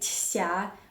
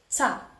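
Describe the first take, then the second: First: The ending is said as separate t and sya. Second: The ending is said as a single tsa sound. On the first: The speaker calls it wrong. "You do not say тся" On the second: The speaker calls it right. "You just say ца"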